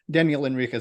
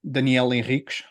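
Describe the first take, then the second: First: The name is pronounced with English sounds. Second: The name is pronounced with Portuguese sounds. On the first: "is fine" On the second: "if you're going to try and say it in Portuguese"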